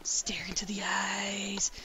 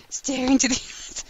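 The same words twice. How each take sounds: First: Slow dramatic whisper. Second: Plain voice breaking into laughter; laughing. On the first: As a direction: breathe the words slowly. Dramatic whispered game line. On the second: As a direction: say it and crack up midway. Repeats line, breaks laughing. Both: Acted.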